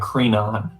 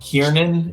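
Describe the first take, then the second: First: The name is said like Crenon. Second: The name is said like Kiernan. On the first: The speaker calls it right. "It's Crenon" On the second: The speaker calls it wrong. "that sounds wrong too. That's not right"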